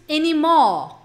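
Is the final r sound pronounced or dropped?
dropped. The r is dropped and the o is lengthened. This is how British speakers say it. "para britânicos, ... alonga o O"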